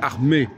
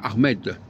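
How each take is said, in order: First: The final consonant is silent. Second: The final consonant is clearly sounded. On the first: It follows ordinary French spelling habits. "parce que c'est comme ça que ça se passe en français" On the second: An added E in writing keeps the last consonant. "on met un E et ça devient Ahmed"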